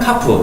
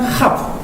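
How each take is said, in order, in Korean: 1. 딱 끊어지는 딱딱한 k 소리로 시작합니다. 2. 숨이 섞인 거친 kh 소리로 시작합니다. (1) "여기에 붙어 있으면은 카프 이런 식으로" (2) "여기에 안 붙어 있으면은 하프 이렇게 발음하고"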